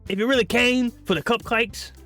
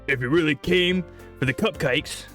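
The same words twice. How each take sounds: First: It is spoken in a mixed accent. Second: It is spoken in a British accent. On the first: "that's a mix" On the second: "that's British"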